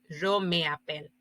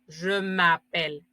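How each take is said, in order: First: The vowel of me is kept and separate. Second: The vowel of me is dropped and joined. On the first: The speaker calls it wrong. "en vez de decir yo me appelle" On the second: The speaker calls it right. "ya se dice je m'appelle"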